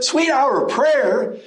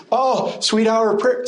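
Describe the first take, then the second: First: Sweet hit hard, higher and slow, in disbelief; incredulous echo. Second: A light, higher mock of a nostalgic sigh over "prayer"; mock wistful sigh. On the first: Real, not acted. Preacher scoffing at looking back, slow and incredulous. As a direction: repeat "Sweet hour of prayer?" slowly in real disbelief. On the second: Preacher mocking saved people looking back, a lightly wistful sigh. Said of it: "they're looking back and".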